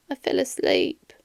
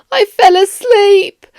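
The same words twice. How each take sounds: First: Much softer, a shamed confession under the breath; ashamed mumble. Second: Higher, slow, deliberate repeat; louder repeat. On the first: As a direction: barely get it out, embarrassed. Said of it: "Sorry, I didn't catch that". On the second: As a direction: say it again so he hears it clearly. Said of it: "Can you repeat it out louder?". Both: Acted.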